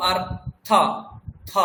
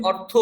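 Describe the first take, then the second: First: অর্থ as "artha", open short a at the end, no o; Sanskrit pronunciation. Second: অর্থ said "ortho", closing on o; Bengali pronunciation. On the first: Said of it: "সংস্কৃতে যখন বলবো আমরা বলবো". (সংস্কৃত উচ্চারণে অর্থ, শেষে ও নেই) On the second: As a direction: round the last vowel of অর্থ to o. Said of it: "বাংলায় যখন বলছেন অর্থ". (বাংলা ধাঁচে অর্থ, ও-কারান্ত) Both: Shown as a demonstration.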